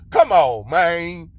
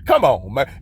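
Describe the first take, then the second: First: It is said in a put-on boosty voice. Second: It is said in his normal voice.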